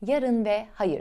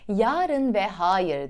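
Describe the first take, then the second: First: The 'a' vowels are kept short. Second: The 'a' vowels are drawn out long. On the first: The speaker calls it right. "şeklinde kısa kullanacağız" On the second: The speaker calls it wrong. "demeyeceğiz"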